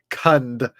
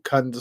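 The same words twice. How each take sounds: First: The word is said slowly and distinctly. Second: The word is said quickly and unclearly. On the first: The speaker calls it right. "that's a better way to pronounce it" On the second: The speaker calls it wrong. "I should say that a little more clearly so nobody mishears me"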